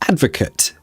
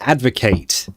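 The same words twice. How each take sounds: First: The last syllable has a reduced, weak vowel. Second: The last syllable has a full 'ate' vowel. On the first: It is used as a noun. "if it's a noun" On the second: It is used as a verb. "To advocate"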